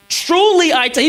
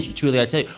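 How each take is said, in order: First: "Truly" high and forceful; emphatic oath. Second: Said in the usual way. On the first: Acted. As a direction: proclaim it like a sworn promise, hitting "Truly". Acts out Jesus swearing it's true.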